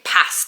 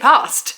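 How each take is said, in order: First: The word is said in a Midlands accent. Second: The word is said in a London accent. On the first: It belongs to an old version of the speaker. "I don't say past anymore" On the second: It is how the speaker talks now. "I say past"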